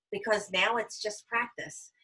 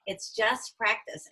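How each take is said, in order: First: Coaching advice. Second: It's just practice slowed way down, just stressed; 言い聞かせるように It's just practice をゆっくり; slow emphatic repeat. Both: Shown as a demonstration. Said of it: "Hold ten or twenty and then call me back".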